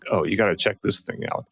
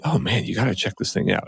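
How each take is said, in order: First: It sounds mocking and disapproving. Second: It sounds genuinely enthusiastic and approving.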